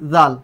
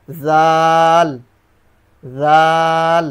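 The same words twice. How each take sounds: First: Said in the usual way. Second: জাল held very long on one louder level tone; long drawn jal. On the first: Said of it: "জাল, সেটার কি হবে?". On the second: Shown as a demonstration. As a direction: stretch জাল out slowly and evenly. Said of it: "সেটার কি হবে?".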